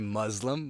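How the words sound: The word is said with an American pronunciation. The speaker calls it wrong.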